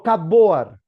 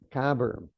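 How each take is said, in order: First: Said as spelled, with 'cup' and 'board'. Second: Said reduced, sounding like 'cubberd'. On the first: The speaker calls it wrong. "no cupboard, como le enseñaban a uno en el colegio" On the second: The speaker calls it right. "The right pronunciation, cavern"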